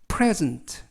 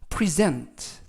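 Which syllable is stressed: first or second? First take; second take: first; second. First: The stress is on the first syllable. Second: The stress is on the second syllable. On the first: It is the noun meaning a gift. "선물이라는 명사로 쓰이면 발음이 present" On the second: It is the verb meaning to give or award. "동사로 어, 선물이나 상 이런 것들을 주다 라는 뜻일 때는 present"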